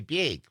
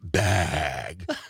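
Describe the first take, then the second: First: The vowel is raised, sounding close to beg. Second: The vowel is open, sounding like bag. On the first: This is how locals say the word. "We say big" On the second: This is how people elsewhere say the word. "It's pronounced bag"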